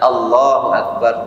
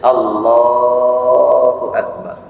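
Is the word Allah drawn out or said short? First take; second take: short; drawn out. First: The word Allah is said short. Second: The word Allah is drawn out long. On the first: The intention was already made before the prayer. "beda dengan madhab yang seperti Hambali" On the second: The intention is made in the heart during the takbir. "biasanya Allah panjang takbirnya"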